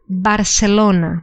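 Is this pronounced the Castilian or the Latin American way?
Latin American. It is said with a Latin American Spanish pronunciation. "And the second pronunciation is Barcelona"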